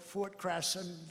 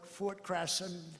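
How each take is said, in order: First: The name is said as Crasson. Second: The same.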